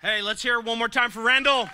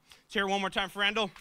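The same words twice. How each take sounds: First: Loud, high call to the room; rally the crowd for Randall; calling for applause. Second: Faster, tossed-off applause call; quick repeat call. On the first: Host calling to the whole room, loud and high. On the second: Host repeating the applause call to the room, quicker. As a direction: rattle it off quickly. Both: Real, not acted.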